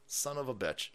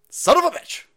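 First: Soft, grumbled swearing; muttered curse. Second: High, loud cursing outburst; exasperated yell. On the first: Host cursing the absent co-worker, quiet mutter. Repeats curse under breath. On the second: Host cursing a co-worker with the night off, exasperated yell. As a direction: yell the curse in frustration. Yelling at absent producer. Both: Acted.

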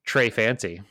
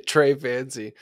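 First: Put-on Trey Fancy in a hammy French accent; mock French accent. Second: Put-on Trey Fancy in a hammy French accent, a laugh first; mock French accent. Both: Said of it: "watched enough Fancy Nancy".

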